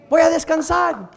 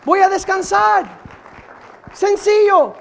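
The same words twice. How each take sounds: First: Said in the usual way. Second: Higher and much louder, proclaimed; louder proclamation. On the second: Shown as a demonstration. Preacher repeating his resolve to the church, louder and higher. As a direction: lift it into a cry of resolve. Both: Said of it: "repeated louder".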